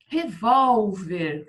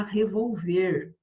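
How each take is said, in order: First: Revólver very slow, with a loud, long VÓL; stress on VÓL. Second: Revolver with the last syllable stressed, re-vol-VER; stress on final VER. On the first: Teacher showing pupils the accented word, stressed VÓL in Revólver. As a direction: punch and stretch the middle of Revólver. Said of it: "sem esse acento aqui no revólver". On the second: Teacher showing the word without accent, stressed final VER in revolver. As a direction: land on the ver at the end of revolver. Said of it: "Se eu não colocasse o acento". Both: Shown as a demonstration.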